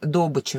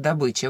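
First: The stress is on the first syllable. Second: The stress is on the second syllable. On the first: This is how oil workers say it. "нефтяники говорят «добыча»" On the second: This is the usual standard pronunciation. "вместо «добыча»"

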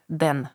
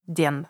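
No difference in how they are said.

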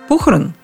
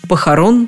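First: The stress is on the first syllable. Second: The stress is on the last syllable. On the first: The speaker calls it wrong. "Раз похороны, значит похорон" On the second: The speaker calls it right. "а дальше все на окончание"

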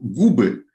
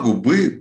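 First: The stress is on the first syllable. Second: The stress is on the second syllable. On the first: It is the plural form of the word. "у нас вдруг перескакивает ударение на основу" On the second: It is a singular form of the word. "Тут все так"

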